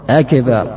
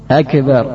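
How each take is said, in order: No difference in how they are said.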